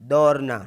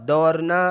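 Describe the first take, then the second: Both takes have the same delivery.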